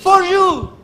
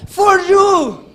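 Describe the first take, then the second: First: For you más alto y fuerte; For you en inglés. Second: For you a gritos, for bien alto; For you gritado. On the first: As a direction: dilo en inglés, marcando for. (for you en inglés, enfático) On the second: (for you gritado en inglés) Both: Shown as a demonstration. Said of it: "En inglés, para que me entienda".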